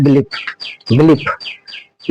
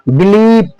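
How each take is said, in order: First: बिलीफ clipped, ee cut very short; quick short vowel in बिलीफ; hurried wrong reading. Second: बिलीफ with the ee held long; long vowel. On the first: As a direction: snap through बिलीफ as the mistake. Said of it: "इस तरह नहीं पढ़ना है". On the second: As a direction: stretch the second syllable of बिलीफ. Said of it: "इस तरह को उच्चारण करना है". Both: Shown as a demonstration.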